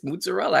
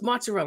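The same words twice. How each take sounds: First: The first syllable sounds like muzz. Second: The first syllable sounds like mozz. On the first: This is how the speaker naturally says it. "that's how I pronounce it" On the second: This is how others say it. "everyone's like, "No, it's mozzarella.""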